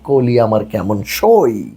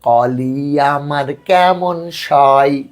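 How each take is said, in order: First: The first vowel of koli is a closed 'o'. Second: The first vowel of koli is an open 'aw'. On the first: The speaker calls it right. "উচ্চারণ করি" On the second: The speaker calls it wrong. "অ or যদি অ অয়ের মতো হয়"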